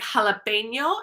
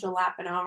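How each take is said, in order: First: The word begins with a breathy h sound. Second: The word begins with an English j sound. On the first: The speaker calls it right. "it sounds like an English H" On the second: The speaker calls it wrong. "we don't say"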